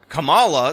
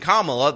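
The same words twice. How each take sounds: First: The name is said in an American-sounding way. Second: The name is said in an Indian-sounding way. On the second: "the actual Indian pronunciation"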